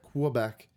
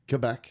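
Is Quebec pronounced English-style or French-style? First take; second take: English-style; French-style. First: The name is pronounced in an English style. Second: The name is pronounced in a local French style. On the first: The speaker calls it wrong. "not Quebec" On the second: The speaker calls it right. "as they say it"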